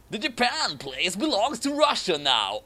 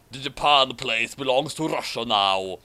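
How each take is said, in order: First: Lightly voiced Putin claiming land; mildly higher conqueror voice; a hint of a villain. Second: Putin voice. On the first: Putin claiming Japan, lightly voiced villain. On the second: Acted. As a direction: drop into Putin's voice. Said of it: "Oh wait, that's Putin".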